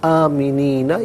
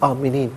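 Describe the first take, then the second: First: The word ends with a short final vowel. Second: The word ends without the final vowel. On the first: The reading continues without a stop. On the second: The reading stops at this word.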